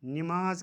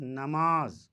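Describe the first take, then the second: First: नमाज said ni-maaz; नमाज as nimaaz; mispronunciation. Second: नमाज said na-maaz; नमाज as namaaz, long last syllable; correct pronunciation. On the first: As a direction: say नमाज with short i after n. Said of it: "का सही तलफ़ुज़". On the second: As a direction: say नमाज with short a after n. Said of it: "सही तलफ़ुज़ नमाज". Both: Shown as a demonstration.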